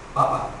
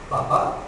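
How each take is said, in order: First: The stress is on the first syllable. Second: The stress is on the last syllable. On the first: It means potato. "si estaba hablando de comer, de un tubérculo" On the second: It means father. "si estaba hablando de tu padre, decía, papá"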